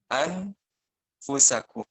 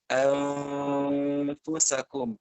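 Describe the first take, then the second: First: The n is pronounced clearly before the f. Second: The n is faint, with lips already shaping f. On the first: "Kalau idhar itu berarti dibacanya an anfusakum" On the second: "Nunnya tetap ada, tetapi posisi bibirnya sudah di posisi huruf setelahnya"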